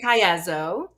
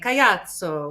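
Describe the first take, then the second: First: The name is said the American way. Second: The name is said the Italian way.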